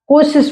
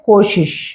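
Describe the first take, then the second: First: The word is said with an s sound. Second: The word is said with an sh sound. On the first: This is how it is said in some regions. The speaker calls it wrong. "कुछ क्षेत्रों में कोशिश बोला जाता है" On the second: This is the standard form. The speaker calls it right. "सही होता है कोशिश"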